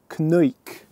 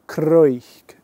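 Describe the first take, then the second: First: The word starts with a k-n sound. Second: The word starts with a k-r sound. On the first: The speaker calls it wrong. "Let's try that again" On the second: The speaker calls it right. "the sound is C R"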